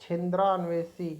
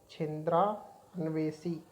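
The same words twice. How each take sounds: First: Said in the usual way. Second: छिंद्रान्वेषी said slowly, every syllable drawn out; careful slow spelling-out. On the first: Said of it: "ये गलत है". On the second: Shown as a demonstration. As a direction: stretch छिंद्रान्वेषी out syllable by syllable, as the correct form. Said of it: "ये सही है". (छिंद्रान्वेषी को धीरे-धीरे, हर अक्षर साफ़ बोलें)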